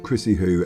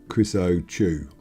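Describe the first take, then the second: First: The middle consonant is a soft h sound. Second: The middle consonant is a hard ch sound. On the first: The speaker calls it right. "the C is silent" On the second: The speaker calls it wrong. "as opposed to"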